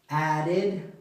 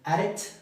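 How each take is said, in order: First: The word ends with an ID sound. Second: The word ends with a T sound. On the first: The speaker calls it right. "Pronunciación id" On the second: The speaker calls it wrong. "como con T al final"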